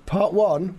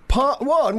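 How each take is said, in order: First: Said in the usual way. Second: Higher and louder, barked; loud sharp voice. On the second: Shown as a demonstration. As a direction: shout it out sharply. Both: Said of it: "Why are you shouting at me?".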